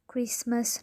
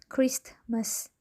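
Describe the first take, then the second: First: The t sound is dropped. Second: The t sound is pronounced. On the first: The speaker calls it right. "the letter T is not pronounced" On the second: The speaker calls it wrong.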